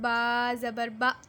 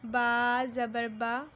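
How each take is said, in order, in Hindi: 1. स्वर एक झटके के साथ अचानक काट दिया गया है। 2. स्वर नरमी से बोला गया है, न झटके से, न खींचकर। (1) "झटका नहीं दें, जैसे" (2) "बगैर खींचे, बगैर झटका दिए मारूफ पढ़ें, यानी नरमी से पढ़ें"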